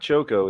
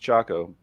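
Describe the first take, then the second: First: It does not sound like the start of chocolate. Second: It sounds like the start of chocolate. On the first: The speaker calls it wrong. "it's not Choco" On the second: The speaker calls it right. "It's Choco, but because as in chocolate"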